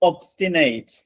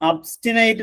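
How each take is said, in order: First: The first vowel is a rounded 'o' sound. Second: The first vowel is an open 'uh' sound. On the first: The speaker calls it wrong. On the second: The speaker calls it right.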